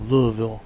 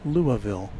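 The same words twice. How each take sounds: First: The name is said run together and slurred. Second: The name is said with all syllables clear. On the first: "maybe it's even kind of more slurred than that by the experts" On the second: "I've kind of settled on Louisville"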